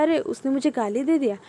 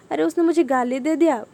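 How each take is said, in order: First: Said in the usual way. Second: Higher, louder, fast indignant replay; a mock indignant thought in Hindi; dwelling on it, aggrieved. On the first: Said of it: "वो thoughts आया". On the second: Shown as a demonstration. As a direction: voice the grudge getting worked up. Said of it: "पर ऐसा नहीं करना है कि".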